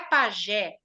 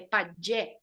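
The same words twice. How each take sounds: First: The j is a soft zh sound. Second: The j is a hard dj sound. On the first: The speaker calls it wrong. "não é pajé" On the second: The speaker calls it right. "O J é J"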